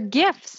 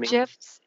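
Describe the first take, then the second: First: The word begins with a hard G sound. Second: The word begins with a J sound. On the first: The speaker calls it right. "They're GIFs" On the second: The speaker calls it wrong. "not GIFs. It's not like the peanut butter"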